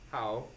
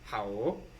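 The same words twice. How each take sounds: First: The pitch stays high and level. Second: The pitch dips down and comes back up. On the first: "first tone would be like how. / First first tone is flat" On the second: "Third third tone would be how / it's like a V"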